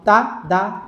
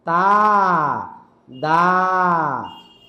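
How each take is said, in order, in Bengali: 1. তিনটি সিলেবল দ্রুত একসাথে বলা হয়। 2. প্রতিটি সিলেবল এক-দুই সেকেন্ড ধরে টেনে বলা হয়। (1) "তিনটা একসাথে উচ্চারণ হবে" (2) "টেনে টেনে বললেন এক একটা এক দুই সেকেন্ড করে"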